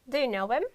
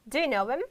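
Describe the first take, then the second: Both takes have the same delivery.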